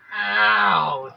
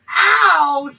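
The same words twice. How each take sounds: First: It is said at a normal pitch. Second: It is said in a higher-pitched voice.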